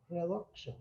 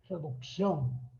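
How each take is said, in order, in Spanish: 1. El acento cae en la primera sílaba. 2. El acento cae en la última sílaba. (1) "En inglés se hace énfasis al principio de la palabra. Por eso se dice reducción" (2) "Nosotros decimos reducción"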